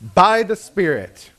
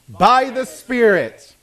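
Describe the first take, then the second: First: It is said plainly, without extra feeling. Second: It is said with strong feeling.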